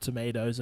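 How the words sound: It is said in an American accent.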